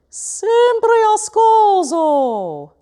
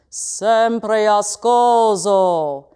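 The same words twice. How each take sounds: First: It is spoken in a middle pitch range. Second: It is spoken low, heavy and loud. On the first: "If I try saying it in my middle voice" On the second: "If I speak this phrase in my low voice, it may sound very heavy, weighty, and belty"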